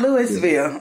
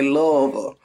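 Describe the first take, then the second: First: Louisville is said the outsider, non-local way. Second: Louisville is said the local Kentucky way. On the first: The speaker calls it wrong. "it's not Louisville" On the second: The speaker calls it right. "If you're really from here, you probably say Louisville"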